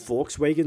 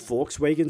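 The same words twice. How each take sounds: First: It is said with an English pronunciation. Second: It is said with an English pronunciation.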